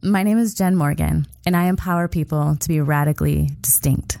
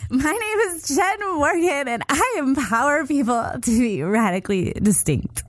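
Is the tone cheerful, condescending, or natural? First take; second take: natural; cheerful. First: It is said in a natural, genuine tone. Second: It is said in a bubbly, cheerleader-like tone. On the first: The listener hears who the speaker really is. "just like Jen Morgan actually does it" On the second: The listener will not take the speaker seriously. "I'm gonna do it like a cheerleader"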